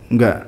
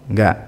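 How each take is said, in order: Both takes have the same delivery.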